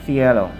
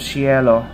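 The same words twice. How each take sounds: First: The word begins with a th sound. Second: The word begins without a th sound. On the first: The speaker calls it right. "T H" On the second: The speaker calls it wrong. "Instead of cielo"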